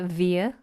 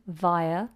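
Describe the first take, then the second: First: The first vowel is an ee sound. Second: The first vowel is not an ee sound. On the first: "A lot of Americans will say via with an E sound" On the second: "We say vi"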